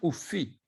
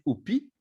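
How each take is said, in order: First: The inner consonant is an f sound. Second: The inner consonant is a p sound. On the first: The speaker calls it right. "on va dire" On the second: The speaker calls it wrong. "on ne va pas dire"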